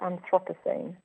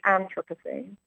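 First: The stress is on a later syllable. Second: The stress is on the first syllable. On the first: This is the British pronunciation. "Brits pronounce it Anthropocene" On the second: This is the American pronunciation. "Americans pronounce it with a stress on the first syllable"

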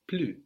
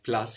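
First: It is said the French way, with no final S. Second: It is said the English way, with a final S. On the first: "but we pronounce plus" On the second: "like plus in English"

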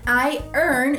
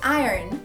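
First: It is said slowly as two separate words. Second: It is said quickly, blended into one word.

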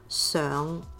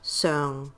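First: The pitch rises slightly from mid-low to mid. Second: The pitch stays level at a mid-low height. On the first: It means on top or upon. "lilts up a bit from a mid-low tone to a mid-tone" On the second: It means previous. "the 上 in 上次 is a flat mid-low tone"

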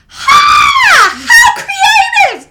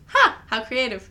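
First: It is said with big exaggerated energy. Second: It is said in a mellow, flat way.

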